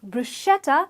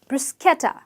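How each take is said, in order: First: The middle is said with an 'sh' sound. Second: The middle is said with an 'sk' sound. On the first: The speaker calls it wrong. "not bruschetta as one would say it" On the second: The speaker calls it right. "brew with an S, Bruce, ke, ta"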